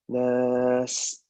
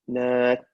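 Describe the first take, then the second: First: The final sound hisses with air flowing out. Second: The final sound stops sharply with air blocked. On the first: The speaker calls it right. "Let the air flow" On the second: The speaker calls it wrong. "Don't block the air. Don't say"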